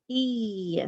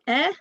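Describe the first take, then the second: First: Isolated long vowel 'E', like 'ee'; long E sound. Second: Isolated short vowel 'eh'; short E sound. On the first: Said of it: "E by itself can make". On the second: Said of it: "E by itself can make eh". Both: Shown as a demonstration.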